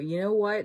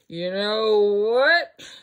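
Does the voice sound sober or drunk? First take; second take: sober; drunk. First: It is said in a normal, sober voice. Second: It is said in a drunk, slurred voice.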